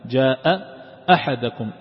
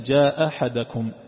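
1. تُسمع همزتان بين الكلمتين. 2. تُسمع همزة واحدة فقط بين الكلمتين. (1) "فالتقت الهمزتان" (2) "فيقرأها همزة واحدة"

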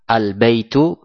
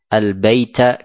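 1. Kata itu berakhir dengan vokal u. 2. Kata itu berakhir dengan vokal a. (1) "al-baitu dibaca dengan fathah" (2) "Ini salah"

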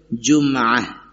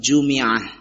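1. M tidak diikuti vokal. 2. M diikuti vokal i. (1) "dengan ditakhfif dhammah tersebut menjadi sukun" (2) "bisa juga dibaca dengan kasrah"

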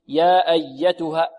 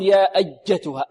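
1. صوت الياء رخو ومنساب. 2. صوت الياء شديد ومتوتر. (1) "الياء حرف ماذا؟ رخو" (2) "ولا نقول يا أجتها، أجتها، لا"

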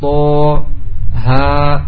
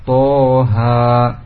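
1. Dua nama huruf itu dibaca terpisah. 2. Dua nama huruf itu dibaca digabung. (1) "Kalau yang pertama kan dipisah" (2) "Yang kedua digabung"

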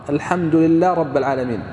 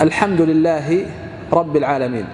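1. تُدغم الهاء في الراء التي بعدها. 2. تُنطق الهاء منفصلة قبل الراء. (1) "لو أنه أدغم الهاء بالراء" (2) "هل تدغم الهاء بالراء؟ لا تدغم"

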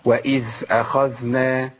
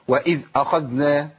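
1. صوت الذال يصير فيه رخاوة مثل الثاء. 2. صوت الذال يُقطع فجأة. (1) "دي مش ذال، انا كده دخلت على مخرج الثاء لاني مشيت النفس" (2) "عدم تطبيق صفه الرخاوه. ازاي؟ اقطع الصوت"

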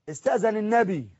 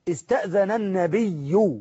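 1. الكلمة الأخيرة لا تنتهي بحركة. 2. الكلمة الأخيرة تنتهي بحركة 'u' واضحة. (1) "ما عشان ما قراهاش باللغه العربيه الفصحى" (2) "ما الضمه ظهرت اهي"

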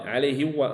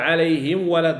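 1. الميم في آخر الكلمة تُحذف. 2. الميم في آخر الكلمة تُنطق. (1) "هذا غلط لأنه لم أنطق بالميم" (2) "نقول عليهم ولا الضال"

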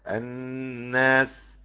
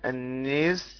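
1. حرف المد فتحة خالصة واضحة. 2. حرف المد مُمال نحو صوت الكسرة. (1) "بالفتح" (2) "بالإمالة"

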